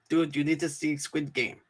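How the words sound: It is said imitating Frenchie's voice.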